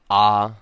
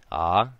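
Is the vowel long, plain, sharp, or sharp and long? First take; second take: sharp and long; long. First: A lengthened vowel with a sharp, abrupt start. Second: A lengthened vowel with a smooth start. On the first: "creating a sharp sound before the vowel and a lengthened vowel sound" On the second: "Now with kahako"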